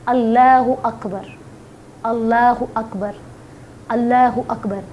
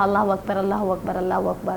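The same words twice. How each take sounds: First: It is recited slowly, with pauses. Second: It is recited quickly, without pauses.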